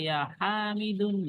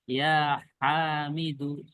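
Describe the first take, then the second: First: The name ends with an added n sound. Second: The name ends in a vowel, with no n. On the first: The speaker calls it wrong. "nggak boleh" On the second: The speaker calls it right. "menjadi gimana?"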